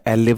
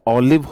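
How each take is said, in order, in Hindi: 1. इस शब्द की शुरुआत एक आगे के 'eh' स्वर से होती है। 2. इस शब्द की शुरुआत एक खुले 'aw' स्वर से होती है। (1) "एलिव नहीं होता है" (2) "ऑलिव होता है"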